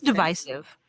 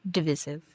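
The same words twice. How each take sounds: First: "divisive" with a long i, as in "vice"; long-i pronunciation. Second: "Divisive" with a short middle i; short-i pronunciation. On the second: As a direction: say "Divisive" as dih-VISS-iv. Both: Shown as a demonstration. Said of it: "Is it divisive or divisive?".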